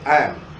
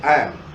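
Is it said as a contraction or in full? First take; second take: contraction; contraction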